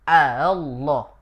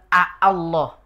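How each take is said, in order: First: The second glottal stop is softened and barely heard. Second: The second glottal stop is pronounced fully and clearly. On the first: The speaker calls it right. "Dibaca dengan ringan" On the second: The speaker calls it wrong. "tidak dibaca dengan a Allah"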